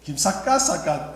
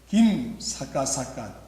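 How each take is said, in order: First: The stress is on the second syllable. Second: The stress is on the first syllable. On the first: "두 번째 할 때는" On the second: "앞에 자를 한 자씩 강조를 하는 거예요"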